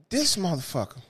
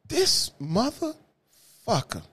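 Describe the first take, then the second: First: Said in the usual way. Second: Slow dramatic buildup. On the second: Acted. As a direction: stretch "This motherfucker" out slowly, drawn and heavy. Dramatic pause before the reveal.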